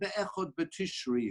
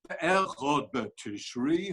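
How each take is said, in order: First: It is said flatly, like a statement. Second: It is said with questioning intonation. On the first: It is the first of Tishri. The speaker calls it wrong. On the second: Is it really the first of Tishri? The speaker calls it right.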